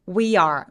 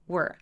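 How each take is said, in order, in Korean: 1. 두 단어를 따로따로 발음해요. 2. 짧은 한 음절로 발음해요. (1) "we are 라고 따로따로 나눠서 발음하시는 분들 많거든요" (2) "얘 한 번에 발음하시면 돼요"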